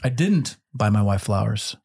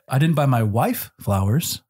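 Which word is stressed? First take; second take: didn't; wife. First: The stress is on the word didn't. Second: The stress is on the word wife.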